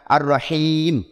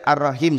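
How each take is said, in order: First: The vowel in the last syllable is held long. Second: The vowel in the last syllable is short. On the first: It means most merciful. The speaker calls it right. "dia kena panjang sikit... Kena baca gitu" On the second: It loses the sense of most. The speaker calls it wrong.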